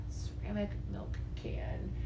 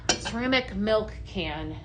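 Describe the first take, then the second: First: Whisper. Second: Said in the usual way. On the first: Real, not acted. Repeats it to herself searching.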